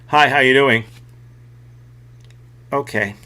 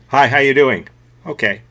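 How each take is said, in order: First: The reply comes slowly, after a delay. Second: The reply comes at a normal pace.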